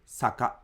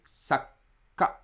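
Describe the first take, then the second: First: Saka said with no held stop; plain two-beat saka. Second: Sakka with the k held; held consonant. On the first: Teacher contrasting saka with sakka. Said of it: "instead of just saying saka". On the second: Teacher contrasting sakka with saka. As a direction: pause on the k in sakka. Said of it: "but if I say sakka". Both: Shown as a demonstration.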